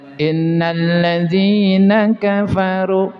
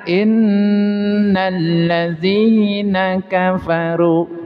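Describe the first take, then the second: First: The nasal n is cut short. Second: The nasal n is held and pressed. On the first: The speaker calls it wrong. "kurang. Gunanya kurang" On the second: The speaker calls it right. "Maka ada penekanan"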